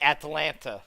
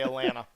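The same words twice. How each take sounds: First: It is said in a non-local way. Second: It is said in the local way. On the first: The speaker calls it wrong. "We don't say Atlanta" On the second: The speaker calls it right. "We say Atlanta. ... that's the way how we say it here"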